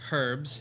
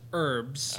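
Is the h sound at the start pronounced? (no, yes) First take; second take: yes; no. First: The word starts with an h sound. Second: The word starts without an h sound. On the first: "everywhere else in the world, it's herbs. Because there's an H there" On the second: "Here in America, herbs. It's herbs"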